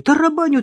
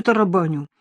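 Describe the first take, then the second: First: «Тарабаню» громко и высоко, с упором; первое «Тарабаню» выкрикнуть с досадой; с нажимом. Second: Said in the usual way. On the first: Acted. Repeated complaint, first take. (друг жалуется, что не мог дозвониться, громко)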